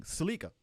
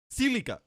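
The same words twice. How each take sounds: First: Salika with a short a in the first syllable, sa-LEE-ka; her own pronunciation. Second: Silica as SIL-i-ka, short i, stress on the first syllable; corrected pronunciation. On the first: To chat, her Salika said as sa-LEE-ka. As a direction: say Salika as sa-LEE-ka, stress on the middle. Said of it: "The way you say Salika is weird". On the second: Trying chat's version, Silica said SIL-i-ka. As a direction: say Silica as SIL-i-ka, higher and firmer. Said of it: "You're saying Salika". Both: Shown as a demonstration.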